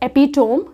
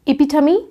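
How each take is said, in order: First: The word ends in a 'tome' sound. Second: The word ends in a 'tuh-mee' sound. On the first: The speaker calls it wrong. "ये एपिटोम हम इसको pronounce नहीं करते हैं" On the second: The speaker calls it right. "हम इसको बोलते हैं इपिटमी"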